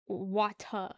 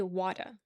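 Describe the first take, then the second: First: "water" as wah-tah, crisp t and no r; childhood water. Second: "water" as wadda, soft d and no r; New York water. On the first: Streamer shows how Roxanne used to say, wah-tah. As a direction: hit the t in "water", end on ah. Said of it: "with W A T A". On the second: Streamer explains New York speech, local wadda. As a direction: say "water" with a d, ending in uh. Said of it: "W A D D A". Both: Shown as a demonstration.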